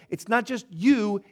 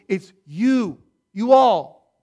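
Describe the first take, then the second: First: Said in the usual way. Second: "You all" punched much louder; stress on YOU ALL. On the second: Shown as a demonstration. Preacher tells the church it means all of them, loud stress.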